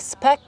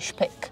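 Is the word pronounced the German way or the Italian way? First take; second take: Italian; German. First: The word is pronounced the Italian way. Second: The word is pronounced the German way. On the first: "In Italian pronunciation would be speck" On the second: "The German pronunciation would be speck"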